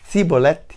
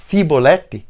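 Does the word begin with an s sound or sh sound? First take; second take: s; s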